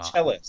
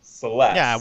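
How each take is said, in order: First: The name begins with a ch sound. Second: The name begins with an s sound. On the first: The speaker calls it wrong. "I heard them say it Cheles" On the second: The speaker calls it right. "I'm pretty sure it's Celeste, right? Like celestial"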